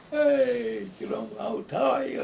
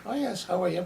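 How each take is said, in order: First: Much higher and louder, a big open hello; demonstrative greeting. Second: Lightly imitating a polite, guarded hello; reserved Irish greeting. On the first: Retold or imitated. Imitating demonstrative Mediterranean people greeting someone, effusive and high. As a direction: throw your arms wide and greet them with gusto. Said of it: "are very demonstrative". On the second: Contrasting the Irish with demonstrative peoples, a mild reserved greeting. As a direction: keep it polite and closed off, hands tight. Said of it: "So the Irish".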